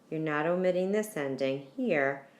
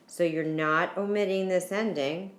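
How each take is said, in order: First: "this" hit firmly with a falling stress. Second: "omitting" pushed up with a rising emphasis; stress on omitting. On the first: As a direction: point at "this" with your voice. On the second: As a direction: lean into "omitting" as the key word. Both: Shown as a demonstration.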